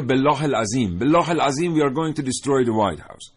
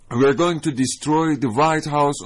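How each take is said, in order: First: Put-on higher and louder, with an Arabic oath and an Arabic-accented English threat; mock the spokesman who swears in Arabic mid-threat; slow Arabic-accented threat with an Arabic oath spliced in; Arabic oath mixed into English. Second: Very slow, higher and louder, with a hint of an Arabic accent; mock an extremist's slow English threat with an Arabic accent; Arabic-accented English, drawn out like a spokesman's threat. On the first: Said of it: "این لغات رو در کنار اون یکی لغات انگلیسی بشنوید". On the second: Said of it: "ته لهجهٔ عربی".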